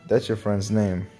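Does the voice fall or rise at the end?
fall. The voice falls at the end, like a statement.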